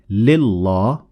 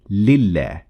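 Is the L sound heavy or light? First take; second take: heavy; light. First: The L is pronounced heavy and full-mouthed. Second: The L is pronounced light and thin. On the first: The speaker calls it wrong. "So we don't say lillah" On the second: The speaker calls it right. "but we say lillah"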